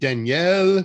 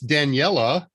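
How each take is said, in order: First: The name is said with a French-sounding pronunciation. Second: The name is said without a French-sounding pronunciation. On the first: The speaker calls it wrong. "I've assumed kind of a French pronunciation" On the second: The speaker calls it right. "It's Daniela"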